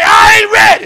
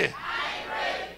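First: Loud call of "I ain't ready"; shouted confession. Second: Slow whisper of "I ain't ready", much softer; whispered echo. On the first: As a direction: belt out "I ain't ready" for the crowd to repeat. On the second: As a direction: breathe "I ain't ready" as a hushed confession. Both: Shown as a demonstration.

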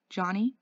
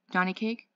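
First: Hoarse, rising call of the name. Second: Hoarse, anxious call. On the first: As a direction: ask his name hoarsely. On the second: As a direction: call his name hoarsely. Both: Acted. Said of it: "he said in a hoarse voice".

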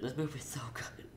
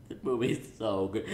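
First: Breathy hushed whisper of awe; awed whisper. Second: Said in the usual way. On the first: Real, not acted. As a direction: whisper it like a secret. Gushing about the movie.

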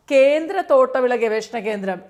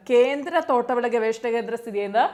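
First: Louder, punching കേന്ദ്ര at the start; emphatic announcement. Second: Said in the usual way. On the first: Shown as a demonstration. Tutor making PSC students note the central institute, louder with കേന്ദ്ര hit hard. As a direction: announce കേന്ദ്ര തോട്ടവിള ഗവേഷണ കേന്ദ്രം loudly, hitting കേന്ദ്ര. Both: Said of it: "ഇനി ശ്രദ്ധിക്കണം".

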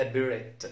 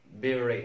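First: بيريت ending in a hard T; بيريت with the silent final T sounded; wrongly sounded T. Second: بيري ending on an "ay" vowel; بيري left open at the end, T silent; correct silent T. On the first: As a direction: mispronounce بيريت as "be-ret". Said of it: "ما اسمهاش". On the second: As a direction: say بيري as "be-ray", no final T. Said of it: "ولا بيريت". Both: Shown as a demonstration.

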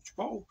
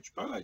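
First: Chipotle said shuh-POT-ul, with a soft "sh" start; chipotle, clipped ending. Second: Chipotle said chi-POHT-lay, ending in "lay"; chipotle, full ending. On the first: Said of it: "people call it chipotle". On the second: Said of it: "or chipotle as you call". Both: Shown as a demonstration.

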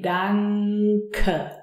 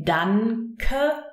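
First: Danke as "dang-kuh", long ng before the k; throat-formed NK. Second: Danke split as "dann-kuh", N with the tongue in front. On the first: Teacher showing what we say, danke with throat-formed ng. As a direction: draw out the ng in danke from the back, then k. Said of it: "we form it in the throat". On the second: Teacher showing what we don't say, danke with front N. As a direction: say danke with a separate n before the k, rising. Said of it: "So we don't say danke". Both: Shown as a demonstration.

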